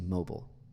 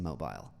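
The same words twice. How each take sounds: First: The word has an American-style pronunciation. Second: The word has a British-style pronunciation. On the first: "You say mobile" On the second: "in the U S, ... we don't say mobile"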